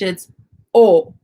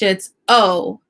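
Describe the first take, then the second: First: The vowel is said the Spanish way. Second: The vowel is said the English way. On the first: "In Spanish" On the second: "In English"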